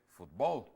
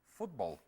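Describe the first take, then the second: First: The stress is on the last syllable. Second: The stress is on the first syllable. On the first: This is not how it is said in English. "no dice fútbol" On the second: This is how it is said in English. "en inglés uno dice fútbol"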